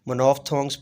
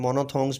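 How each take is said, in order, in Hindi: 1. बीच का 'ph' f की तरह बोला जाता है। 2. बीच का 'ph' पूरी तरह छोड़ दिया जाता है।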